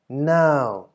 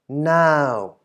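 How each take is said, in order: First: The syllable is said with a falling tone. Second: The same.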